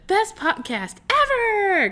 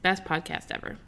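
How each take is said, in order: First: It is said with loud, excited energy. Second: It is read in a flat, plain voice. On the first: The speaker calls it right. "Because it's got a exclamation point" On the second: The speaker calls it wrong. "I should have said that"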